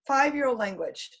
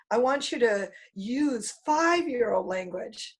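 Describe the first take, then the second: First: Said in the usual way. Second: Put-on "five-year-old" drawn out slowly and stressed, rising at the end. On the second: Shown as a demonstration. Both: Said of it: "I want you to speak in simple language".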